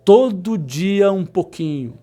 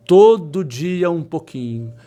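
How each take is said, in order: Both takes have the same delivery.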